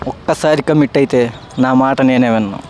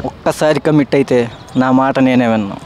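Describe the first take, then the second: First: It is said in a serious tone. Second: It is said in a serious tone.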